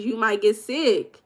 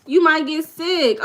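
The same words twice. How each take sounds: First: Said in the usual way. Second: "You might get sick" repeated higher, slow, stressing You; higher emphatic repeat. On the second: Shown as a demonstration. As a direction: warn them again, pitched up on You.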